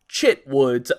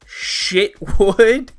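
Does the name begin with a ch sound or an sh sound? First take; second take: ch; sh. First: The name begins with a ch sound. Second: The name begins with an sh sound. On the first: "or it could be pronounced like Chip... and that would be Chitwood" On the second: "C H can be pronounced like uh, Chicago, so that would be like Shitwood"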